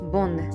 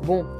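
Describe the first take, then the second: First: The vowel is oral, ending in an n sound. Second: The vowel is nasal with no n sound. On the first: The speaker calls it right. "n の発音をしているので" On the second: The speaker calls it wrong. "ボンではなくて"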